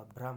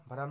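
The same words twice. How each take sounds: First: Said in the usual way. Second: भ्रम said 'bha-ram', two syllables; extra vowel. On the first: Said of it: "होगा". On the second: Shown as a demonstration. Teacher rejecting a form, भ्रम split as 'bharam'. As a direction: break the 'bhr' of भ्रम with an 'a'. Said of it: "नहीं होगा".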